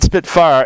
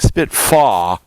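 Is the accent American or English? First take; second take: American; English. First: It is said in an American accent. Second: It is said imitating an English accent.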